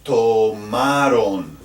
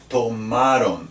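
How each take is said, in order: First: Tomaron said slowly, stress on RON; slow demo word. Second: Tomaron repeated, stress on RON; repeated model word. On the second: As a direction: say tomaron once more, clearly. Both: Shown as a demonstration. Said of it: "and ustedes".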